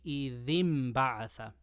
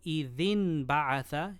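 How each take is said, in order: First: An m sound comes before the b. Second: A plain n sound comes before the b. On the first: The speaker calls it right. "qalb means to change the noon for a meme" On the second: The speaker calls it wrong. "instead of"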